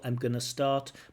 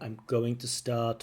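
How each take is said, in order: First: Going to is reduced and linked into gonna. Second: Going to is said fully as separate words. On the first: "you could try changing it to I'm gonna start. That sounds a bit more natural" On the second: "We have the full use of going to"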